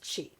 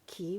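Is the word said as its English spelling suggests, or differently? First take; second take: differently; as spelled. First: The word is not said as its spelling suggests. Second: The word is said as its English spelling suggests. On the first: The speaker calls it right. "It's qi" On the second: The speaker calls it wrong. "a lot of people pronounce it qi, which drives me crazy"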